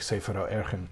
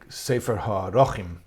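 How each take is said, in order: First: The last word has two syllables, ending in -chen. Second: The last word has three syllables, ending in -chim. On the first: This is the form everyone commonly uses. The speaker calls it wrong. "but we all say Sefer HaErchen" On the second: This is the grammatically correct form. The speaker calls it right. "It's probably Sefer HaRochim"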